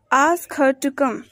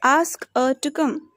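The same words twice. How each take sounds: First: Said in the usual way. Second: "her" without its h, as 'er'; weak form of HER. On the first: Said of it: "For example". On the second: Shown as a demonstration. Teacher showing learners weak forms, "her" said as 'er'. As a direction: link "ask her" as 'ask-uh'. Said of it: "We pronounced in a weak form".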